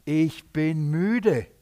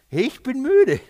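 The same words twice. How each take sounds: First: Very slow, drawn-out weariness; tired, disappointed. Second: High, loud exasperated outburst; exasperated weariness. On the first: Jesus confesses he is tired of their unbelief, weary. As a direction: stretch it out as a weary admission. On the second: Jesus tells the faithless generation he is tired, exasperated. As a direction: cry it out, fed up and disappointed. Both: Retold or imitated. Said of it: "Warum ist er so enttäuscht?".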